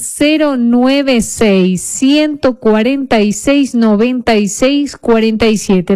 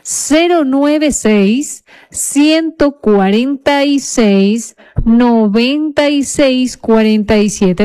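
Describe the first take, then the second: First: The number is said at normal speed. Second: The number is said more slowly.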